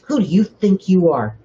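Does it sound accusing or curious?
accusing. It sounds like an indignant accusation.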